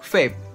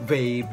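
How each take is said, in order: First: The first sound is pronounced like an f. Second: The first sound is pronounced as a clear v. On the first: This is how Indonesians say it. "Mereka make it same pronunciation with F" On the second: This is how Malaysians say it. "benar-benar disebut V-nya di dalam bahasa Malaysia"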